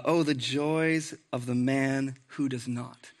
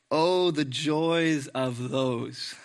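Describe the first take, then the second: First: Said in the usual way. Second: Very slow, lingering reading; slow reverent reading; savoring the words. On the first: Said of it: "That's how Psalm one starts". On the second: Shown as a demonstration. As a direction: draw out each word like a blessing. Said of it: "That's beautiful".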